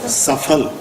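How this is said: It is said with a Persian-style pronunciation. The speaker calls it wrong.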